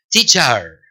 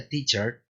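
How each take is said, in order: First: "teacher" with a full open A, "tee-CHAR"; wrong pronunciation. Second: "teacher" with the final E almost silent; correct pronunciation. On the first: Teacher mimicking learners' mistake, wrong heavy ending. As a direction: overdo the last vowel of "teacher" as "char". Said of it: "No es la pronunciación correcta". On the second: Teacher giving learners the correct form, weak ending. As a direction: end "teacher" on a light schwa, not "char". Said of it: "La pronunciación correcta de teacher es". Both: Shown as a demonstration.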